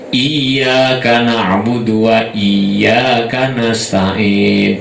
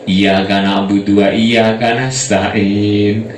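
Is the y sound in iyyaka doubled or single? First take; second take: doubled; single. First: The y sound in iyyaka is held doubled. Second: The y sound in iyyaka is short and single. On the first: The speaker calls it right. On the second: The speaker calls it wrong.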